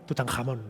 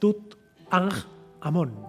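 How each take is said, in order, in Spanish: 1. El nombre se dice rápido, como una sola palabra. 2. El nombre se dice despacio, en partes separadas.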